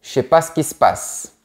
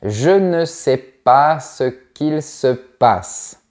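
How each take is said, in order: First: Sounds are dropped and words run together. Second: Every word is pronounced fully and separately. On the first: "On dira plutôt" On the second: "c'est très rare qu'on dise"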